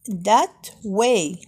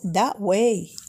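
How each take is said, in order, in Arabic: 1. تُقال الكلمة الأولى كاملة وببطء. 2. الكلمة الأولى مختزلة وتُقال بسرعة. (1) "يمكننا نقولوا that way" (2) "بسرعة أكثر سنقول the way"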